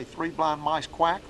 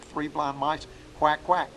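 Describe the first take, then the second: First: Slow chant, "quack" lifted at the end; cadence with a quack. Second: Slow chant, "quack, quack" punched at the end; cadence with two quacks. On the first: Teacher showing students how to fill out the call, slow chant. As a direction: draw it out and pop the quack. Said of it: "all you gotta do is say". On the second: Teacher giving the alternate duck-call rhythm, slow chant. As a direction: add a second quack on the tail. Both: Shown as a demonstration.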